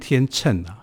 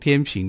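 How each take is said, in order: First: The second syllable is pronounced cheng. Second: The second syllable is pronounced ping. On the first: "其实念天秤啊" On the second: "我们把它念成天平"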